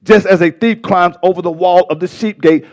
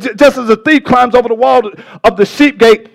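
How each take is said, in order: First: Calmer, more measured preaching; settled, deliberate teaching pace; slowed down. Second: Hurried, raised preacher's explanation; worked-up pulpit teaching; excited preaching. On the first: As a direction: rein it in and explain it steadily. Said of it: "Let me slow down". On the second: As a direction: rush into it, carried away by the point. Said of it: "I'm getting so excited". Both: Real, not acted.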